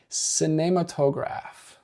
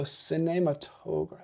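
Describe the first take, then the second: First: Cinematograph slow, sine-ma-to-graf with a French e; French pronunciation. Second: Cinematograph slow, se-nei-ma-to-gr with a French e; careful French cinematograph; French pronunciation. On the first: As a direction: cinematograph said slowly and carefully the French way. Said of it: "it's apparently pronounced". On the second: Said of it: "Be more accurate with the French pronunciation". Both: Shown as a demonstration.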